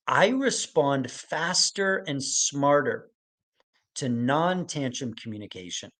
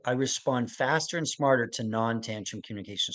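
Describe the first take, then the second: First: Slow, deliberate read of the statement, each word laid out; slow dictation. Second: Said in the usual way. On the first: Shown as a demonstration. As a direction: read it slowly so they can write it down. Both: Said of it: "statement that I want you to write down".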